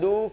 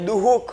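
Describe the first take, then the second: First: No h sound is heard after the first syllable. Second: An h sound is heard after the first syllable. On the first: The speaker calls it right. "દુઃખ બોલીએ છીએ" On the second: The speaker calls it wrong. "અહીંયા દુઃખ એવું નથી બોલતા"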